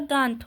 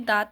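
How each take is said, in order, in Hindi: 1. स्वर नासिक ध्वनि के साथ बोला जाता है। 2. स्वर बिना नासिक ध्वनि के बोला जाता है। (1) "दांत होता है" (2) "ये दांत नहीं होता"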